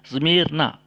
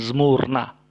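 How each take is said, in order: First: The vowel after zm is an i. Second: The vowel after zm is a u. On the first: The speaker calls it right. "Seharusnya dibaca Zmirna" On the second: The speaker calls it wrong. "bukan Zmurna"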